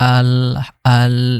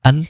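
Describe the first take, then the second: First: The word is drawn out over a longer time. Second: The word is clipped and ends very quickly. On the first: The speaker calls it wrong. "অনেকে আমরা আল আল এরকম পড়ি" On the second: The speaker calls it right. "একদম একদম কম সময়ের মধ্যে হবে। আল শেষ"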